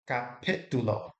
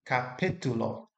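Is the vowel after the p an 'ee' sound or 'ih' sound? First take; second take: ih; ih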